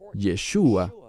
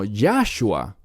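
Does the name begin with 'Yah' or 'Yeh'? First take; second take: Yeh; Yah. First: The name begins with the syllable 'Yeh'. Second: The name begins with the syllable 'Yah'. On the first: It is the real Hebrew form of the name. The speaker calls it right. "eso tiene sentido" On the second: It is a made-up blend, not Hebrew. The speaker calls it wrong. "No Yahshua, que no es hebreo"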